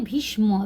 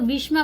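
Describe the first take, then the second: First: It is read the Bengali way. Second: It is read the usual non-Bengali way. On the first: "हम लोग यहाँ बंगला में पढ़ेंगे" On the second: "भीष्मा पढ़ते हैं"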